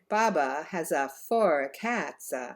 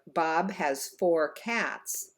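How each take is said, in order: First: Extra uh vowels are added after consonants. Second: The words end cleanly on their consonants. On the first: The speaker calls it wrong. "it might sound something like" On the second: The speaker calls it right. "Instead of"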